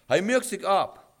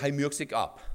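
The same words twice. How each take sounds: First: "Er merkt sich ab" slowed, raised and punched; "Er merkt sich ab" said slowly with weight on every word; emphatic repeat. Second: Said in the usual way. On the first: Shown as a demonstration. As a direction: drive home "Er merkt sich ab", drawn out.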